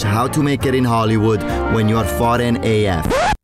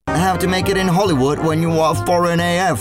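First: It is said in his own non-British accent. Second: It is said in an attempted British accent.

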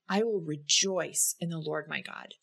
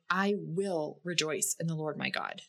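First: The stress falls on the word "rejoice". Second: The stress falls on the word "will". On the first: Having joy is intentional. "In the second instance, you notice that having joy, again, is intentional" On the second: Rejoicing is a choice. "In the first instance, you can notice that it's a choice to rejoice in the Lord"

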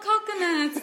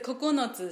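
First: It sounds like the English word coconuts. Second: It is said with even Japanese syllables. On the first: The speaker calls it wrong. "they said coconuts. And I'm like, not coconuts" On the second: The speaker calls it right. "it's a kokonotsu, so nine"

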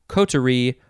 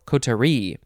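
First: The stress is on the first syllable. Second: The stress is on the last syllable. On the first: "you can emphasize the first syllable" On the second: "or the last syllable"

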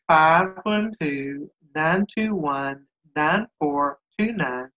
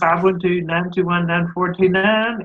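First: The number is said slowly. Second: The number is said fast.

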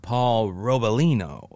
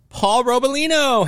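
First: The name is said in a sultry, seductive tone. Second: The name is said in a plain, ordinary tone. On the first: "if you said it in a certain way, like, ... you could make it porny" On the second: "your name really doesn't sound like a porn name"

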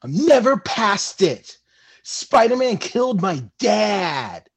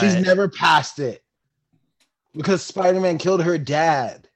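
First: It is said with sighing, dramatic angst. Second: It is said plainly, without angst.

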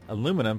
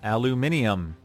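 First: It is said the American way, four syllables. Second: It is said the British way, five syllables.

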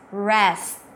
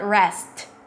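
First: The final T is cut off without release. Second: The final T is clearly released with air. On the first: The speaker calls it right. "I'm blocking the air with my tongue abruptly, and that is the T" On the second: The speaker calls it wrong. "It's not rest"

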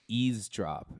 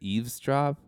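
First: The first syllable sounds like 'ease'. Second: The first syllable sounds like 'eve'. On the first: The speaker calls it wrong. "I thought it was eavesdrop ... Like ease" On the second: The speaker calls it right. "instead of eavesdrop"

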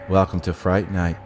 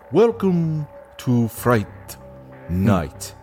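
First: Regine's line is said flatly, with no emotion. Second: Jerry Dandridge's line is said in a mocking tone.

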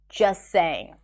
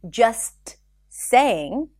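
First: The t is dropped and the words are linked. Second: The t at the end of just is pronounced. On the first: "you can drop the T and connect the two sounds together" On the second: "there is a T there"

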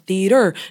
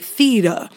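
First: It is said with a standard R ending. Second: It ends in 'uh' with no hard R.

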